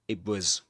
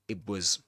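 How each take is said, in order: Both takes have the same delivery.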